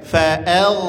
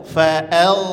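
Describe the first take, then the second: Both takes have the same delivery.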